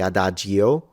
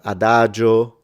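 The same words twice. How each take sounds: First: The i after the g is pronounced. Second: The i after the g is silent. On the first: The speaker calls it wrong. "we don't say adagio" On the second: The speaker calls it right. "a few I's that are silent"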